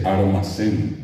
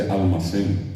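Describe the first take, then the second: First: Armacén with an R instead of the L; Guarani R for L. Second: Almacén with a clear L; standard L. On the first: Showing how Guarani speakers say armacén. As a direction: say armacén, R in place of L. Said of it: "La gente dice armacén". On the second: Contrasting with the standard almacén. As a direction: say almacén with a proper L. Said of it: "no dice almacén". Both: Shown as a demonstration.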